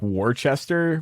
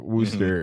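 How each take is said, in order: First: It is said with three syllables, as written. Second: It is said with two syllables, letters skipped. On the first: This follows the written spelling. "It's spelled like Worcester" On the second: This is how locals say it. "but it's like Worcester ... you missed a few syllables"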